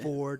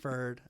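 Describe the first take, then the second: First: The vowel is a full 'or' sound. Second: The vowel is a reduced 'er' sound. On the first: An outsider's way of saying the town name. The speaker calls it wrong. "they wouldn't say it right" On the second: The local way of saying the town name. The speaker calls it right. "not Ferd"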